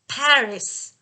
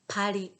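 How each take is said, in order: First: The word is said with English pronunciation. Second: The word is said with Japanese pronunciation. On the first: The speaker calls it right. "please remember it's Paris" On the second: The speaker calls it wrong. "not Paris"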